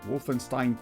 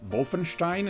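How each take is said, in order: First: It is pronounced the American way. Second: It is pronounced the German way. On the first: "I go with the American pronunciation" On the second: "if you want to go with the German pronunciation"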